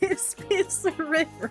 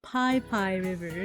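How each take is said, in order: First: The name is said with a 'piss' sound. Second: The name is said with a 'pie' sound. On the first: This follows the written spelling. The speaker calls it wrong. "not Piss Piss River" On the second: This is how locals say the name. The speaker calls it right. "it's called Pai Pai River"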